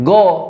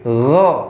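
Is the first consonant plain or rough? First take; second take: plain; rough. First: The first consonant is a plain hard g. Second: The first consonant is rough and throaty. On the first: The speaker calls it wrong. "bukan go" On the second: The speaker calls it right. "tapi ada sedikit kotornya. Jadi gho"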